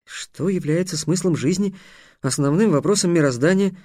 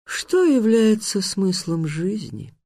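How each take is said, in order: First: Lightly voiced apprentice, tentative; mildly eager, uncertain report; hopeful. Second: High, slow, drawn-out question; sing-song monster merriment; cheerful sphinx. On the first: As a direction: offer the question hopefully, at a normal pace. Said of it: "с надеждой сообщил Трикс". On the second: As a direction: gleefully stretch out the riddle in a high voice. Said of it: "весело спросил сфинкс". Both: A narrator's reading.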